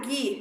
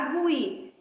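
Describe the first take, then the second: First: No 'w' sound is heard after the g. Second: A 'w' sound is heard after the g. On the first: The speaker calls it right. "G U I dá gui" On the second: The speaker calls it wrong. "não dá gui"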